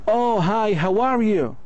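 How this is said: The voice rises and sounds warm and friendly. The speaker likes the other person. "if you like this person, you will speak this way"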